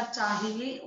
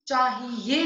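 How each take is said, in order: First: Said in the usual way. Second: चाहिए said "chaahiye" with stretched ye; wrong ending. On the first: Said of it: "होता है". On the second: Shown as a demonstration. Teacher correcting a mistake, चाहिए with drawn-out ye. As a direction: lean on a "ye" at the end of चाहिए. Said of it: "नहीं होता".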